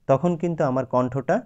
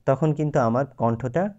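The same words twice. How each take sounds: The two takes are said the same way.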